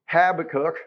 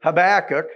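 First: HABAKKUK said HAB-uh-kuk; Habakkuk as HAB-uh-kook, front-stressed; first-syllable stress. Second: HABAKKUK said huh-BACK-uk; Habakkuk as huh-BACK-uk, louder on BACK; second-syllable stress. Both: Shown as a demonstration. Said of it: "according to what part of the country".

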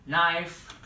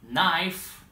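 Both takes have the same delivery.

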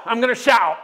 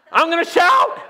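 First: Said in the usual way. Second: Higher, loud exclamation; shout. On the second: Real, not acted. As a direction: burst out with joy.

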